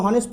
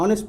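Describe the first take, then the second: First: হনেস্ট said with a sounded h at the start; wrong pronunciation. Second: অনেস্ট with a silent h, opening on অ; অনেস্ট without any h; correct pronunciation. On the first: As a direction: say হনেস্ট opening on a clear h, the mistaken way. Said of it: "এটাকে হনেস্ট পড়বে না". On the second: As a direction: say অনেস্ট starting straight on অ, no h. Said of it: "অনেস্ট পড়বে". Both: Shown as a demonstration.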